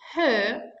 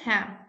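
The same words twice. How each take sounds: First: The vowel is full and clearly pronounced. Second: The vowel is reduced and weakly pronounced. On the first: "As a strong form" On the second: "As a weekend form"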